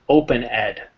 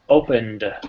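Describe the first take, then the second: First: The ending is said as a separate extra syllable. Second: The ending joins the word without an extra syllable. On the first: The speaker calls it wrong. "than if you say ed" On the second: The speaker calls it right. "I'll be very precise with my enunciation"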